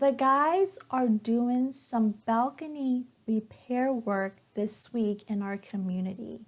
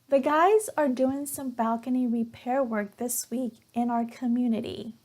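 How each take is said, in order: First: It is read slowly and carefully. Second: It is read at a natural, normal speed. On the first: "The first time will be at a slower speed" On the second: "the second time will be at a normal speed, where as if a native speaker were speaking"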